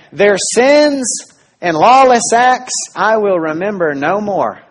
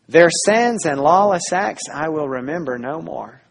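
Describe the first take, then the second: First: Slow, louder, every word weighted; solemn proclamation. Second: Said in the usual way. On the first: Acted. Preacher voicing God to the congregation, slow and solemn. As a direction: proclaim it as God's own promise. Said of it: "you hear God say". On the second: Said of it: "And now God says".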